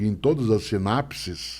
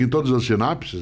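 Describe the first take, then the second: First: The syllables are stretched out in a singsong way. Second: The syllables are said at a normal quick pace. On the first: The listener absorbs it and has time to follow. The speaker calls it right. "valorizando? Isso... esticar... as sílabas" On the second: The listener does not take it in. The speaker calls it wrong. "ela não entende"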